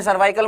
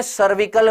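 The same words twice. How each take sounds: First: सर्वाइकल said with a long 'vaai', the wrong way; the common wrong reading सर्वाइकल, with a long vowel; wrong pronunciation. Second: सर्विकल said with a short 'vi', as 'sar-vi-kal'; the right reading सर्विकल, not सर्वाइकल; correct pronunciation. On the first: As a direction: say सर्वाइकल as 'sar-VAAI-kal'. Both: Shown as a demonstration. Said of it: "सर्वाइकल मत कर देना".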